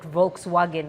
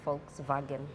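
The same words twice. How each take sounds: First: The word begins with a V sound. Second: The word begins with an F sound. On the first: The speaker calls it wrong. "not Volkswagen as we call it in Uganda" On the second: The speaker calls it right. "The V is an F, so it's actually Volkswagen"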